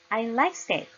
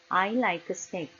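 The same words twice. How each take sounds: First: Words carry clear English stress and rhythm. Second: Syllables are even, with no clear stress. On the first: Foreigners will understand it. The speaker calls it right. "이렇게 해야 알아듣겠죠" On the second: Foreigners may not understand it. The speaker calls it wrong. "한국어로 해보겠습니다"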